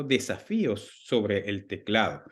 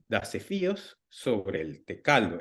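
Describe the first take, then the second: First: "teclado" dicho bien, te-cla-do; título correcto. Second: "tecaldo" con las sílabas trocadas, te-cal-do; título con error. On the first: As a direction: pronuncia "teclado" con la l antes de la a. ("teclado" bien dicho, te-cla-do) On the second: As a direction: di "tecaldo" en vez de teclado, leyendo el error. ("tecaldo" dicho tal cual, con la errata) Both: Shown as a demonstration. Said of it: "y estaba mal escrito".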